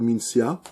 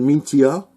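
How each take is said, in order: First: The word is pronounced the French way. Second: The word is pronounced the Japanese way. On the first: "en France, on prononcerait plutôt Mintia" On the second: "en japonais, on prononcerait Mintia"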